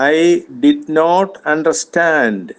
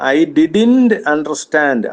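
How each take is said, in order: First: Did not is said as two full words. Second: Did not is contracted into one word. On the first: "full" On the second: "അതിന്റെ short form ഉണ്ട്"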